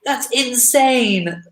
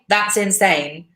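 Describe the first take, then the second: First: It is said with emphasis, sounding surprised. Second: It is said flatly, without extra emphasis. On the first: Something is amazing. The speaker calls it right. "as if you're surprised by it" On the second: Something makes no sense. The speaker calls it wrong. "If you just say that's insane, it doesn't sound like slang"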